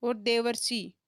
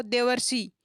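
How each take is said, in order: First: Said in the usual way. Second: देवर्षि with the अर sound brought out clearly; teacher letting students hear the अर in देवर्षि; sounding out the word. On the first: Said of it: "बोल के देखो". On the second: Shown as a demonstration. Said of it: "देखो, बोल के देखो".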